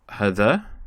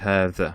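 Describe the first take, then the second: First: The vowel after the h is short. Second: The vowel after the h is long. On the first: The speaker calls it wrong. "we don't say هذا" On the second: The speaker calls it right. "it's pronounced as if it's a long vowel on the ha"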